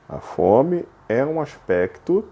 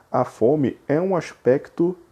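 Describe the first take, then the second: No difference in how they are said.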